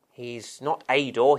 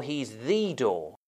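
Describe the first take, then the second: First: "a" said as a full, separate word, lower-pitched; stress on A. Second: Slow, lower, "the" said as a long "thee"; stress on THE. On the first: Preacher rules out one door among many, stress on "a". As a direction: set up the contrast by stressing "a". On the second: Preacher insists on Jesus' uniqueness, long stressed "the". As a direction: land weightily on "the" as the one and only. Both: Shown as a demonstration. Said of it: "quite a stress on the uniqueness".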